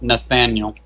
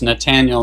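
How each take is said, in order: First: The middle consonant is a th sound. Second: The middle consonant is a plain t sound. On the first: The speaker calls it wrong. "thought it was with a T H" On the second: The speaker calls it right. "So it's Nathaniel"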